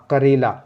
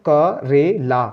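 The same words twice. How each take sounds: First: Said in the usual way. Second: Slow, क रे ला sounded out separately; syllable by syllable. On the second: Shown as a demonstration. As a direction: break क रे ला into syllables, slowly. (धीरे-धीरे अक्षर अलग करके) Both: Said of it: "ला पे मुंह खोलना है".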